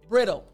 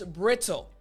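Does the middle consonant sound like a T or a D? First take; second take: d; t. First: The word is said quickly with the middle sound like a D. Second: The word is said slowly with the middle sound like a T. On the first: "we say this word quickly, and it sounds like this ... it sounds like the T's turn to D" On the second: "saying it slowly, it's brittle"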